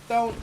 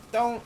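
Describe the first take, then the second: No difference in how they are said.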